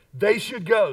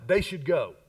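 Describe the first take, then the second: First: Firm, raised-voice declaration; passion and conviction. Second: Said in the usual way. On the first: Shown as a demonstration. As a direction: say it with real conviction to rally the room. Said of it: "with a little more passion and conviction". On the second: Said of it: "say that with a little more passion and conviction".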